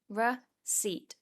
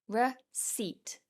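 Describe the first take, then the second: Both takes have the same delivery.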